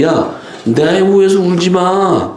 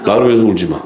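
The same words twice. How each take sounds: First: High, drawn-out retold rebuke; mock scolding. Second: Understated rebuke, falling in pitch; retold curt rebuke. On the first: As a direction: act out telling them off, pitched up and slow. (높고 길게 끌며 꾸짖는 흉내) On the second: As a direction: retell the telling-off matter-of-factly, without raising the voice. (목소리를 높이지 않고 담담하게 꾸짖는 흉내) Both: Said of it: "그냥 막 뭐라 그러잖아요".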